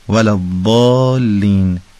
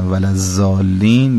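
First: The consonant is an emphatic d sound. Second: The consonant is a plain z sound. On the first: The speaker calls it right. "به این شکل" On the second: The speaker calls it wrong. "حرف باد هم که نباید به شکل ز تلفظ بشه"

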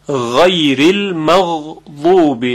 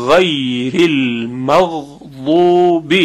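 Both takes have the same delivery.

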